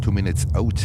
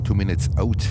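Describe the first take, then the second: First: The word out has a Northeastern-Canadian vowel. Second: The same.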